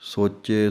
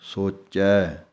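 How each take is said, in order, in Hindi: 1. शब्द का अंतिम स्वर बंद 'e' है। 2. शब्द का अंतिम स्वर खुला 'ai' है। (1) "ਇਹ ਨਹੀਂ ਹੈ" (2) "ਚੈ ਦੀ ਆਵਾਜ਼ ਨਿਕਲਣੀ ਹੈ"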